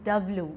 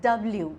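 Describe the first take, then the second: The two takes are said the same way.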